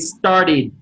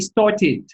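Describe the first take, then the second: First: It is said with the r sound. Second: It is said without the r sound. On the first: "Americans would say started" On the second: "The British way, they would say started"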